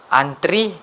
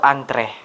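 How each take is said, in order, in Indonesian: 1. Vokal akhirnya adalah bunyi 'ee'. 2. Vokal akhirnya adalah bunyi 'eh'. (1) "Masyarakat cenderung menggunakan kata antri, namun ternyata itu keliru dan tidak baku" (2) "Yang benar ialah antre"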